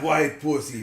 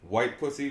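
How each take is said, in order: First: It is said in an imitated character voice. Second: It is said in the speaker's normal voice. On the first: The speaker calls it right. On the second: The speaker calls it wrong.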